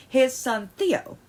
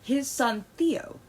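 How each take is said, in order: First: Tense, clipped with anger; angry. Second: Slower, steadier retake; calmer. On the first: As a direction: say it through real anger. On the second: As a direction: reset the voice to calm. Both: Real, not acted. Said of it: "my voice is apparently on mad".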